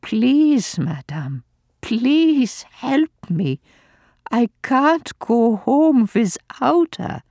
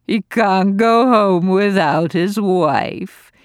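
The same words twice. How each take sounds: First: Higher, slow, desperate plea; father pleading with the old lady, slow and desperate. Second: Mock his plea, slow and louder; old lady mocking the father's plea, slow and sneering; mocking mimicry. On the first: Acted. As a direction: beg her, drawing out please. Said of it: "Father rallied his last resources". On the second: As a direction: parrot his words back with scorn. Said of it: "gloated Lady Bromley".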